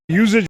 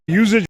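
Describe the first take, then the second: The two takes are said the same way.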